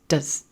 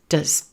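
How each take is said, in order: First: The vowel is reduced to a schwa. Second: The same.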